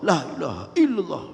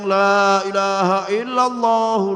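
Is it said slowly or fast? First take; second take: fast; slowly. First: It is said quickly with short sounds. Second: It is said slowly with long drawn sounds.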